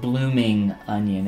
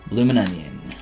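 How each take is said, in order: First: The g of blooming is clearly pronounced. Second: The g is dropped, run together as one word. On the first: The speaker calls it wrong. "It's never pronounced blooming onion" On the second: The speaker calls it right. "You got to drop the G, and then it's all like one run-on word"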